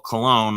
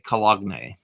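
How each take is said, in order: First: It is said the usual way. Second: The written letters are sounded out. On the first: The speaker calls it right. "I wouldn't speak, spell cologne" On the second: The speaker calls it wrong. "I would say cologne, because that's not how it's pronounced, but that's how it's spelt"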